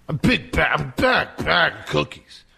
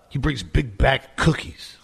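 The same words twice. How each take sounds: First: Big bag said slowly, leaning on each bag; stress on bag. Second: Said in the usual way. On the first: Real, not acted. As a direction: drag out bag, bag for comic emphasis. Repeating for emphasis.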